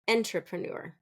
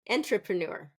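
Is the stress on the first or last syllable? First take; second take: first; first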